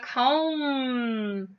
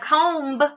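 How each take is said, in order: First: The word ends on a plain m sound. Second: The final b is pronounced after the m. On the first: The speaker calls it right. "I say I'm going to comb my hair" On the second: The speaker calls it wrong. "I don't say I'm going to comb my hair"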